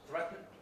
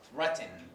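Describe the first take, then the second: First: The final n is syllabic with no vowel. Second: A weak vowel is sounded before the final n. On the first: "They feel that it is difficult to pronounce threaten like this" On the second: "some accents pronounced like this ... So they do insert this schwa"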